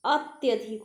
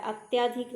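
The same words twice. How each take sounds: First: अत्यधिक said as 'at-ya-dhik'; short middle vowel. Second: अत्याधिक said as 'at-yaa-dhik'; long middle vowel. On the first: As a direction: keep the 'ya' of अत्यधिक short. (अत्यधिक में 'य' छोटा) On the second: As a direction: stretch the 'yaa' in अत्याधिक. (अत्याधिक में 'या' लंबा) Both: Shown as a demonstration. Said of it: "अत्याधिक नहीं".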